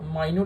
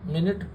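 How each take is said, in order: First: It sounds like 'my-newt' with a long i. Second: It sounds like 'min-it' with a short i. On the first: Very small. "माइन्यूट यानी कि छोटा" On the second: A unit of time. "मिनट एक अलग pronunciation है"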